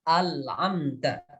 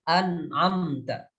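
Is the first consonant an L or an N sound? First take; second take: L; N. First: The first consonant is turned into an L sound. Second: The first consonant is a clear N sound. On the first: The speaker calls it wrong. "berubah menjadi lam" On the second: The speaker calls it right. "harus dibaca dengan izhar"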